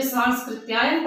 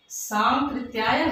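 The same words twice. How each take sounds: First: "सांस्कृत्यायन" with an extra s before the k; mispronounced name. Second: "सांकृत्यायन" with no s before the k; corrected pronunciation. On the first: Teacher showing pupils' misreading, "सांस्कृत्यायन" with an added s. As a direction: say "सांस्कृत्यायन" wrongly, slipping स् in after सां. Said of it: "कुछ बच्चे सांस्कृत्यायन पढ़ते हैं". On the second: Teacher correcting pupils' misreading, "सांकृत्यायन" without the extra s. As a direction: say "सांकृत्यायन", nasal सां straight into कृ. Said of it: "सांकृत्यायन है बेटा". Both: Shown as a demonstration.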